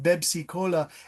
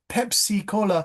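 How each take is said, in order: First: The word begins with a B sound. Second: The word begins with a P sound. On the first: The speaker calls it wrong. "they say Bebsi, B sound" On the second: The speaker calls it right. "with a P, P"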